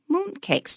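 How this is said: Only the first word carries stress. The speaker calls it right. "moon and cakes are both nouns, so we call them"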